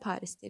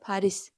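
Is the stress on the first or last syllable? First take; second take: first; last. First: The stress is on the first syllable. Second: The stress is on the last syllable. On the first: This is how Turkish speakers say it. "Türklər Paris deyir" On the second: This is how Azerbaijani speakers say it. "Vurğu sondadır"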